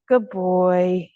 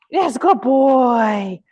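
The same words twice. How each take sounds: First: Said in the usual way. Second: Drawn-out happy praise; excited praise. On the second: Real, not acted. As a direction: lift the voice to reward him. Praising dog for touch.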